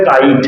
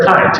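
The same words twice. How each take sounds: First: কাইট with a plain, unaspirated K; Bengali-style hard K. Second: কাইট opening on a puffed KH; English aspirated K. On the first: Teacher showing what the student would say, plain K in কাইট. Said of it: "তুমি বোঝাতে কখন বলবে". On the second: Teacher showing what a native speaker says, aspirated KH in কাইট. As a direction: puff the K of কাইট into KH. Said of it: "কিন্তু সে বলে দিয়ে চলে গেল". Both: Shown as a demonstration.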